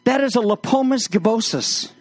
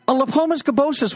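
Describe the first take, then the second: First: Said in the usual way. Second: Lepomis gibbosus said high and grand; pompous scholarly repeat; mock pompous Latin. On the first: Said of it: "and I said". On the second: Shown as a demonstration. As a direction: savor the Latin name like a know-it-all.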